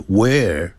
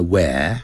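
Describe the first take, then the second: First: "where" with a curled-tongue R; American R. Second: "where" without any R sound; British, no R. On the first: Teacher shows American English, "where" with the R sounded. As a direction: curl the tongue at the end of "where". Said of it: "在美式英语要卷舌的". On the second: Teacher shows British English, "where" with the R dropped. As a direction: leave the tongue uncurled ending "where". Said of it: "它不卷舌". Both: Shown as a demonstration.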